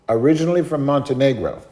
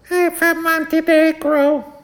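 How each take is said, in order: First: Slightly raised, measured answer; lightly voiced father giving his origins; immigrant father. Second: Put-on very high, slow kid voice; little boy. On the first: Father answering the cashier, lightly voiced polite reply. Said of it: "And he goes". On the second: Little boy answering the cashier, squeaky drawn-out child voice. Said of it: "the little boy goes".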